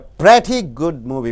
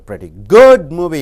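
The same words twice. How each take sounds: First: The word pretty carries the stress. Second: The word good carries the stress. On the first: The movie is good. "When you stress on pretty, it means it's a good movie" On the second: The movie is only average. "You don't stress on pretty. You stress on good"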